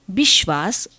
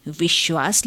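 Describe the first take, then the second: First: "विश्वास" opening on b in place of v; Bengali pronunciation. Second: Said in the usual way. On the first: Shown as a demonstration. Lecturer showing how Bengalis pronounce it, "विश्वास" said as bishwas. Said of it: "विश्वास उच्चारित करते हैं". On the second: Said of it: "विश्वास लिखते हैं".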